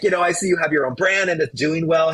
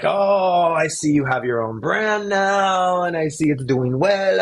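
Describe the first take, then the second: First: Said in the usual way. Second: Put-on high, drawn-out Italian accent. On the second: Retelling the call from the Italian former boss, Italian accent. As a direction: put on a sing-song Italian accent, stretching the phrase endings. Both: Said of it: "I'm gonna do it with the Italian accent".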